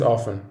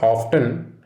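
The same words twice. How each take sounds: First: "often" as OFF-en, no t; "often" with a silent t; right often. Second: "often" with the t sounded; "often" said OFF-ten; wrong often. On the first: Teacher showing students the right way, "often" without the t. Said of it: "Don't pronounce the T". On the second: Teacher showing students the wrong way, "often" with a sounded t. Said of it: "There's a silent T". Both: Shown as a demonstration.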